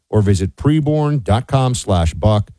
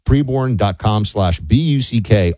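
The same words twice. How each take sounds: First: Said in the usual way. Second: "B U C K" said as four separate letters; spelling it out. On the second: Shown as a demonstration.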